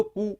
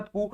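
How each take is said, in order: First: कु said with a short, clipped u. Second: कु said with a long, held uu. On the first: Teacher demonstrating the short u matra, कु kept short. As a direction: snap कु off with a quick short vowel. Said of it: "छोटे ऊ की मात्रा के साथ". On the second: Teacher demonstrating the long uu matra, कु drawn out long. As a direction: hold the vowel of कु out long. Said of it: "बड़े ऊ की मात्रा के साथ". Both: Shown as a demonstration.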